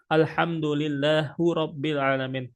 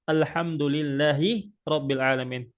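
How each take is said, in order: First: Lillah ends with a u vowel. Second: Lillah ends with an i vowel. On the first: The speaker calls it wrong. "merofakkan atau mendomahkan hak yang ada pada di lillah" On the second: The speaker calls it right.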